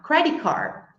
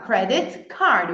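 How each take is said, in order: First: Credit card with the T of credit swallowed; the natural native way; T dropped. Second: Credit card with the T of credit clearly released; the careful, over-precise way; wrong full T. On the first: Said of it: "eu vou falar". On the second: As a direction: say credit with a crisp T before card. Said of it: "Eu não vou falar". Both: Shown as a demonstration.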